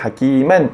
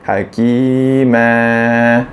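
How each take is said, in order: First: The word ends with a short vowel and n. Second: The word ends with a lengthened final vowel. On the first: The reading continues without stopping. The speaker calls it wrong. "kalau kita nak stop, kita tak baca hakiman" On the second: The reader stops on this word. The speaker calls it right. "tapi kita baca hakimah, dua dengan dua harakat"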